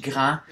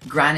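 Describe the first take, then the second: First: "grand" said the French way; French pronunciation. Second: Said in the usual way. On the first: Shown as a demonstration. Showing where the word comes from, French pronunciation of "grand". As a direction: say "grand" in French, open vowel, silent final d. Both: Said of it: "is clearly from French".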